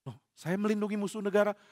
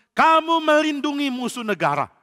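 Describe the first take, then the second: First: Softer, bewildered repeat; stunned priest repeating the accusation; stunned echo. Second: Higher, louder accusation; angry king accusing the priest. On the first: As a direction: echo the charge in disbelief. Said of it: "Ahimelek kaget". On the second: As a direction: throw the charge at him. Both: Acted.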